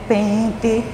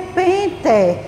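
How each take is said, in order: First: The final vowel sounds like an i. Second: The final vowel sounds like a closed e. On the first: The speaker calls it right. "A gente fala" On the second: The speaker calls it wrong. "A gente não vai falar"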